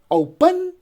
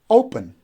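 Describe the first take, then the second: First: The stress is on the second syllable. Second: The stress is on the first syllable. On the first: The speaker calls it wrong. "If we say open, so then we are stressing the second syllable" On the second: The speaker calls it right. "the stress goes on the first syllable, we say open"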